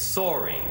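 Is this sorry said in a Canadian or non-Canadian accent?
Canadian. It is said with a Canadian vowel. The speaker calls it right. "you have to use a Canadian accent"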